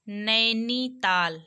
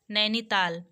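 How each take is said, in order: First: नैनीताल slowly, "naai-nee - taal"; teacher sounding out the ai in नैनीताल; drawn-out vowel. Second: Said in the usual way. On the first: Shown as a demonstration. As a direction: stretch each syllable of नैनीताल. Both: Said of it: "ए sound based है".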